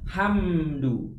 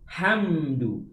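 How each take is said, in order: No difference in how they are said.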